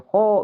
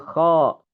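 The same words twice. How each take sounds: First: The lips are pushed forward and rounded. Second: The mouth is simply open, lips not rounded. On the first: The speaker calls it wrong. "Jangan sampai kho begitu" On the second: The speaker calls it right. "Tapi kho, ro begitu"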